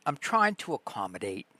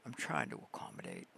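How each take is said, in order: First: Said in the usual way. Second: Much lower, softer and fast; deep growled repeat. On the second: Pretend. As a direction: drop into a deep mock voice. Repeat dropped very low.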